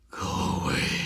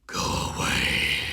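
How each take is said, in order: First: It is said softly, without force. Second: It is said loudly and forcefully.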